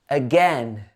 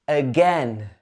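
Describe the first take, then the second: No difference in how they are said.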